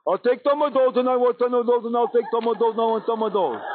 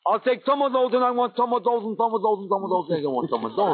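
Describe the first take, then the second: First: Higher, goofy singsong patter; silly idiot voice. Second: Goofy chant starting high, sinking to usual pitch; silly idiot demo. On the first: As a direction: demonstrate a dim-witted beggar's chant. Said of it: "you put on that silly look, and you talk like this". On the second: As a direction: show the idiot voice for a learner. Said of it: "Let me have that slow". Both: Shown as a demonstration.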